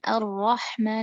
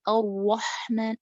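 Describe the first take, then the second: First: The ra is said with lips barely rounded. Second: The ra is said with lips pushed forward.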